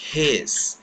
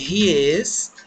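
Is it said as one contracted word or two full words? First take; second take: contracted; two words. First: It is said as one short contracted word. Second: It is said as two separate full words.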